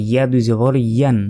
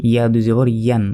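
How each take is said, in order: No difference in how they are said.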